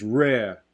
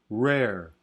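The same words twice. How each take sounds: First: The final r is dropped entirely. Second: The r is a plain, non-Southern American r. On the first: "non-rhotic, where it becomes rare" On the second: "as opposed to rare"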